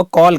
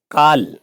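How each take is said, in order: First: कॉल with a rounded o, like "kol"; English "call" mispronounced as कॉल with a closed o; closed o mistake. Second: काल for "call", with a long open vowel near आ; English "call" as काल, long open vowel. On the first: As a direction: round the vowel in कॉल toward ओ. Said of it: "तो कॉल गलत है". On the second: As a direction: open the vowel in काल wide, toward "kaal". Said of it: "आ तथा आ के बीच की ध्वनि". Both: Shown as a demonstration.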